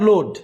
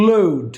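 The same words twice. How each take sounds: First: Load with a pure short o, "lod"; wrong pronunciation. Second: Load with o gliding to u; corrected pronunciation. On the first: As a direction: say load the mistaken way, no glide. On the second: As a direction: model load as a falling diphthong, "lo-ud". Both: Shown as a demonstration. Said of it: "not load".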